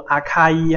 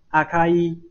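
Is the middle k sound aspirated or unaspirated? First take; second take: aspirated; unaspirated. First: The middle k is aspirated and strong. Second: The middle k is unaspirated and light. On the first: The speaker calls it wrong. "不要读阿卡伊哈" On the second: The speaker calls it right. "而是读作阿卡伊"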